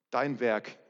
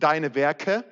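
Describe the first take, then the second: First: Dein Werk said plainly and a little lower, singular as the right version; correct reading. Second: Deine Werke set off in a louder voice, plural marked as the wrong version; wrong reading. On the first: Preacher correcting the verse for the church, plainly. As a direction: give dein Werk as the true wording. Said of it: "da steht". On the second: Preacher quoting the wrong wording to the church, set apart. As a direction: say deine Werke as the misreading to reject. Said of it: "da steht übrigens nicht". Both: Shown as a demonstration.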